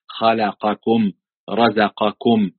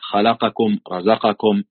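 First: Each letter gets its full vowel separately. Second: The short vowels are snatched and rushed together. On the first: The speaker calls it right. "لا خلقكم رزقكم" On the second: The speaker calls it wrong. "زي ما قلت لك"

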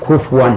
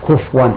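No difference in how they are said.

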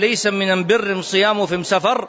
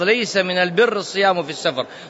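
First: It is said in a Yemeni dialect form. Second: It is said in standard Arabic form. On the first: This wording of the report is not authentic. The speaker calls it wrong. "رواه الخطيب باللهجة اليمنية، واللهجة اليمنية" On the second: This is the authentic wording of the report. The speaker calls it right. "وإنما بلفظ"

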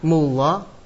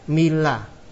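First: The vowel after the m is 'u'. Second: The vowel after the m is 'i'. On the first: "Boleh dibaca doma" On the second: "Boleh dibaca kasroh"

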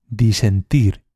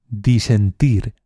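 No difference in how they are said.

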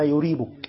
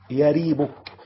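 First: The first y is not followed by 'a'. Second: The first y is followed by 'a'. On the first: The speaker calls it wrong. "بعض الناس بتنطق إيه؟" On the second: The speaker calls it right. "لا يريبك بفتح الياء"

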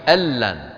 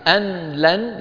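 First: The n merges into the l, one word. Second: The n is heard separately before the l. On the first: The speaker calls it right. "يدغمون النون في اللام" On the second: The speaker calls it wrong. "لا يصح أن نفصل أن عن لن"

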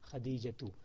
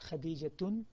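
First: The name ends on a plain vowel. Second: The name ends with an added n sound. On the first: The speaker calls it right. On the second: The speaker calls it wrong.

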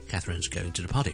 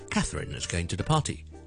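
First: The pitch on the name stays level. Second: The pitch on the name falls. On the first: The speaker calls it right. "咁我听到Catherine 都系平调嘅" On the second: The speaker calls it wrong. "如果跌咗落嚟就好怪"

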